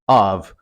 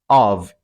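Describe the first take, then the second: No difference in how they are said.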